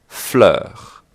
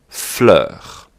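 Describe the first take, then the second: The two takes are said the same way.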